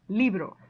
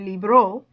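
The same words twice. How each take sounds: First: The stress is on the first syllable. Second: The stress is on the last syllable. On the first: The speaker calls it right. "the next to the last syllable, which happens to be the first one, is li" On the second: The speaker calls it wrong. "putting a real stress on the O"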